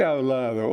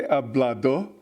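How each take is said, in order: First: "hablado" with b softened to v; sloppy consonants. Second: "hablado" with a hard b and hard d; over-clear "hablado", rising at the end; crisp consonants. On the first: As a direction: loose Spanish "hablado", consonants blurred. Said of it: "doesn't clearly pronounce its consonants". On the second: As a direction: pronounce every consonant in "hablado" distinctly. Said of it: "They don't say hablado". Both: Shown as a demonstration.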